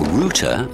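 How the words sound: The word is said in a British way.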